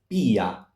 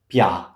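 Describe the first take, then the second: First: The i is a separate, stressed vowel. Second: The i glides quickly into the a. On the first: The speaker calls it right. "it's pia, the stress is on I" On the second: The speaker calls it wrong. "here's not pia"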